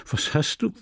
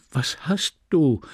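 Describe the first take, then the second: First: Flustered stammer. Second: Dragged out, bewildered repeat; flustered stammer, slower. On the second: Husband repeats his bewildered question to his angry wife. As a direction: ask again, lost and slow. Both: Acted. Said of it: "stammelte er verdattert".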